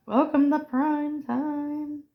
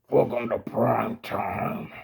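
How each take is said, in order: First: Drawn-out, higher announcer-like catchphrase; movie catchphrase. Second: Lower, softer echo of a villain's line; movie villain catchphrase. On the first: Quoting a horror movie line, mock-grand and drawn out. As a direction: deliver the famous line slowly, stretched out. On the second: Echoing the horror film's line, low villain voice. Second speaker echoes the film line. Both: Acted.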